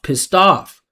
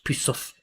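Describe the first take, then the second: First: The vowel in 'pissed' jumps high with resonance. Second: The vowel in 'pissed' stays flat and low. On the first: The speaker calls it right. "I'm saying pissed off ... I'm driving the pitch up" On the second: The speaker calls it wrong. "He said pissed off"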